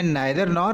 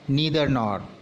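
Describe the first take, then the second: First: Neither is said with an 'eye' vowel. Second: Neither is said with an 'ee' vowel. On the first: "British English में" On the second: "American English में"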